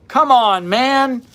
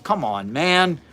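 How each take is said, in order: First: Higher and louder, fed up; exasperated come on. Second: Said in the usual way. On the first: Real, not acted. Host scoffing at methylene blue health fads, exasperated. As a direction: scoff at the nonsense.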